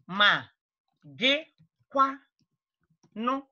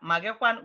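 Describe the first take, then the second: First: "Ma... gị... kwano?" with long pauses between the parts; syllable by syllable. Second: Said in the usual way. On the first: Shown as a demonstration. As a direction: split "Ma gị kwano" into separate, carefully placed pieces. Teacher breaks phrase down for learners.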